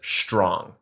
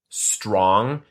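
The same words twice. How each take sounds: First: The word starts with a sh sound. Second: The word starts with a plain s sound. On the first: "Everyone says strong, like S C H T R O N G" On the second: "no one says strong"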